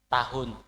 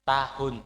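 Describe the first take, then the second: The two takes are said the same way.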